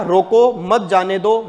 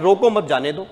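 First: "रोको मत जाने दो" slowly, word by word, rising on "रोको"; reader's interpretation. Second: "रोको मत जाने दो" run together, lifting on "रोको"; lawmaker's interpretation. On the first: Teacher reads the ambiguous line his way, "रोको मत जाने दो" slow and separated. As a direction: draw out "रोको मत जाने दो" to show one reading. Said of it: "double interpretation आ गई". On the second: Teacher gives the lawmaker's reading, "रोको मत जाने दो" quicker and joined up. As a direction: say "रोको मत जाने दो" briskly as one connected phrase. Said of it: "law maker कहना चाहते हैं".

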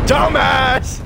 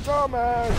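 First: High, loud yelled insult; high-voiced mocking shout; loud jeer. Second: High jeer without the shout; restrained high-pitched taunt; high mocking repeat. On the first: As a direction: yell it at the enemy, pitched way up. Jeering at an enemy. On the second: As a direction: jeer way up high at moderate volume. Repeats the jeer more softly.

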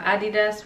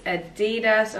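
First: Adidas with the stress on A, "AD-ee-das"; stress on first syllable. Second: Adidas with the stress on DI, "a-DEE-das"; stress on second syllable. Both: Shown as a demonstration. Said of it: "you probably pronounce it differently".

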